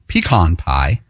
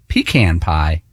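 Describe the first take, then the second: First: It is said the Western way. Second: It is said the Northeastern way.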